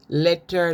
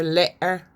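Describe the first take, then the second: First: Said in the usual way. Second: "letter" with no T, "le'er"; glottal stop. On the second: Shown as a demonstration. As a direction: catch the throat in place of TT in "letter". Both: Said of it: "they don't sound T".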